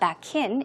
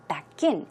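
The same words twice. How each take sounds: First: The stress falls on the word back. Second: The stress falls on the word in. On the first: The speaker calls it wrong. "It's not back in" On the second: The speaker calls it right. "The stress, as you see, goes on in"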